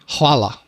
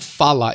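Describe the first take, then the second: First: The word begins with an hv sound. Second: The word begins with an f sound. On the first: The speaker calls it right. "H V is the pronunciation" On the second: The speaker calls it wrong. "it's not fala"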